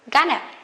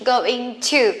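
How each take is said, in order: First: It is said quickly and reduced. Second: It is said slowly and in full.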